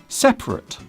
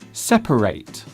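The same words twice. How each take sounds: First: The last syllable is short and reduced. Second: The last syllable sounds like 'ate'. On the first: Two things are apart. "Two things can be apart or separate" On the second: To split or divide things. "You can separate two things, which means to split or divide"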